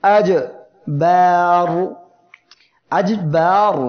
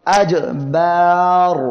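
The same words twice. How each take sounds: First: আজবার recited slowly and loud, jim stopped hard; tajweed demo. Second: আজবার drawn out slowly, loud, with a hard stop after jim; tajweed demo. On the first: Teacher repeating the word for students, slow and loud. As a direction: stretch আজবার and stop the sound sharply on jim. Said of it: "এখানে আওয়াজটা বন্ধ হয়ে যাচ্ছে". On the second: Teacher showing the hard jim stop to students, slow and loud. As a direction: chant আজবার slowly, cutting the sound on the jim. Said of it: "এই যে জিম অক্ষরটি উচ্চারণের পরে কি হচ্ছে". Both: Shown as a demonstration.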